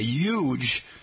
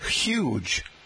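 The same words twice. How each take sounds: First: The initial H is silent, New York style. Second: The initial H is clearly pronounced.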